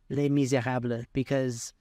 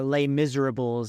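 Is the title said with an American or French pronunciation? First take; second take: French; American. First: It is said with a French-style pronunciation. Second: It is said with an American-style pronunciation.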